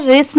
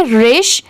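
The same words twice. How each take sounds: First: "रिस" ending in a plain s; wrong pronunciation. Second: "रिश" ending in a sh sound; correct pronunciation. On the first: Teacher showing learners the reading to avoid, s-ending "रिस". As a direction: say "रिस" with an s at the end. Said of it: "रिस नहीं पढ़ेंगे". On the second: Teacher correcting learners' reading of r-i-s-h, sh-ending "रिश". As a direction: say "रिश" with a clear sh at the end. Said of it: "इसे क्या पढ़ेंगे?". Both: Shown as a demonstration.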